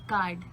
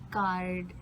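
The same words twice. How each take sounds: First: The R sound is silent. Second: The R sound is clearly pronounced. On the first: "you can't really um, li- uh, listen to the letter R in it" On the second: "you say like card"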